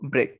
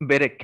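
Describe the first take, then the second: First: The b and r form a tight cluster. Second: A vowel is inserted between the b and r. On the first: "মার্জিত ভাবে আসি তাহলে এটা হচ্ছে ব্রেক" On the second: "ওইটা হচ্ছে একদম খাঁটি বাংলা উচ্চারণ"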